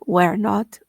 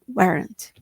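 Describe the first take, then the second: First: It is said as two separate full words. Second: It is said as one short contracted word.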